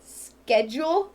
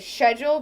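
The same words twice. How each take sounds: First: It is said with an American pronunciation. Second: It is said with an English pronunciation. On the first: "Like in America, we say" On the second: "the way um, English people do, and they say"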